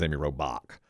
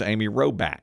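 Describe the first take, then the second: First: Robach said ROW-back with a hard k at the end; correct pronunciation. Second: Robach said ROW-ba with the final k dropped; wrong pronunciation. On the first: Shown as a demonstration. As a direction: say Robach crisply as ROW-bock. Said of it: "her name is Amy Robach". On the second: Retold or imitated. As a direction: Robach as ROW-bah, no k at the end. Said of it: "Well, her name is Amy Robach".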